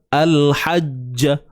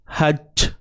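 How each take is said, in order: First: The final j is followed by an a vowel. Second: The final j ends without any added vowel. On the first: The speaker calls it wrong. "Ja, bunyi ja kan?" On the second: The speaker calls it right. "jangan bunyi c. Hajj"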